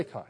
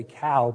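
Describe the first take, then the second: First: COW said like "kai"; Northern Irish pronunciation. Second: COW with a rounded "ow" ending; American pronunciation of cow. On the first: Preacher teaching the congregation his own way, Irish "cow". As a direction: say "cow" the Belfast way, close to "kai". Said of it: "that's the right way to say it". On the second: Preacher mimicking how the congregation says it, American "cow". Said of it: "you all say cow". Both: Shown as a demonstration.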